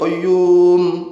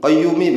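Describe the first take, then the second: First: The word ends on a closed 'm' sound. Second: The word ends with a final 'i' vowel. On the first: The recitation stops here. "Itu kalau sekali, mimnya disukun" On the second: The phrase continues into a repetition. "kalau dibaca diulang-ulang ya, mi-nya dibaca"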